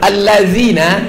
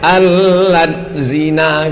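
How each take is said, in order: First: The word flows together as one smooth unit. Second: The word is broken into two separate parts. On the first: It is read from the Arabic script. The speaker calls it right. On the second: It is read from Latin letters. The speaker calls it wrong.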